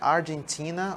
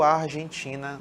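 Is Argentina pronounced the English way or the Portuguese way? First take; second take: English; Portuguese. First: It is pronounced with English sounds. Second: It is pronounced with Portuguese sounds.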